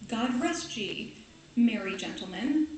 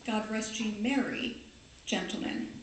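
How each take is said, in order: First: The pause comes before the word merry. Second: The pause comes after the word merry. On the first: The gentlemen being addressed are merry. The speaker calls it wrong. "It's not" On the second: God is asked to keep the gentlemen strong and joyful. The speaker calls it right. "It's God rest ye, merry gentlemen. Commas, always important"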